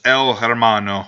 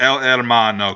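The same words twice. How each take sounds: First: "Hermano" with an audible H at the start; H pronounced. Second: "Hermano" starting straight on the E; silent H. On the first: Naming the versus episode, "Hermano" said with breathed H. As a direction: sound the H in "Hermano". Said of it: "you don't pronounce the H". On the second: Correcting himself, "Hermano" said without any H sound. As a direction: drop the H in "Hermano", Spanish-style. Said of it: "in Spanish you don't pronounce the H". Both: Shown as a demonstration.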